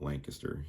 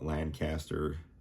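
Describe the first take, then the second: First: It is pronounced the way local residents say it. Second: It is pronounced the way outsiders say it. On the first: This is how people who live there say it. "we do call it Lancaster here. That's how we pronounce it, the locals here" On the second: This is how visitors from elsewhere say it. "out of towners may call it Lancaster"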